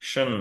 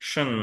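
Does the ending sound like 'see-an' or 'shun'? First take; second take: shun; shun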